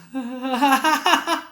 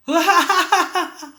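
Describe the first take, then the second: First: High demo laugh in crescendo; laugh growing soft to loud. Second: High demo laugh, diminishing; laugh fading loud to soft. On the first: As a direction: start with a small laugh and build it up. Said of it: "dari pelan ke keras". (tertawa dari pelan membesar ke keras) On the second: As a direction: burst out laughing, then shrink it away. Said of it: "dari keras ke pelan". (tertawa dari keras mengecil ke pelan) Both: Shown as a demonstration.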